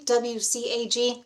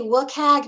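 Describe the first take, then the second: First: Each letter is said separately. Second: It is said as a single word. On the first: "who say each letter separately" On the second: "I say W C A G because I'm neutral good"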